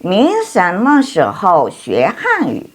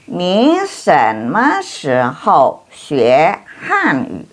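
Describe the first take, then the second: First: Somewhat slow, smoother and less spaced out, falling on "Hanyu"; a quicker second run-through of the sentence; moderately slow reading. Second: Very slow, syllable by syllable, ending on a fall on "Hanyu"; slow demo with every tone carefully placed; slow model reading. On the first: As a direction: read "Ni shenme shihou xue Hanyu" once through, less deliberately. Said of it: "same sentence read again". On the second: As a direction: lay out "Ni shenme shihou xue Hanyu" slowly for learners. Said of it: "model reading, later repeated faster". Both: Shown as a demonstration.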